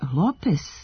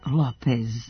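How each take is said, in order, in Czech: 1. Přízvuk je na první slabice. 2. Přízvuk je na druhé slabice. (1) "akcenat je na prvom slogu. Ali zašto je Lopez" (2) "a ne Lopez?"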